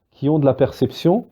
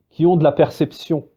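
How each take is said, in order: Both takes have the same delivery.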